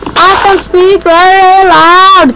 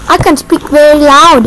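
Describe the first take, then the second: First: It is said very loudly. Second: It is said at normal loudness.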